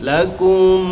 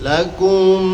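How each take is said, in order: No difference in how they are said.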